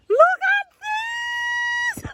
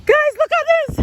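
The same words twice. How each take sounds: First: Very high and stretched, slow; real overjoyed shriek; drawn-out excited squeal. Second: High, loud, thrilled call; real excited yell; excited shout. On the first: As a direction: hold the word out in amazement. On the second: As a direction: burst out with delight. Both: Real, not acted. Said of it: "sorry to be shouting in your ears".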